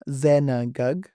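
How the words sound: The second vowel is fully pronounced. This is the Western dialect form. "Western style C form for this word will be pronounced"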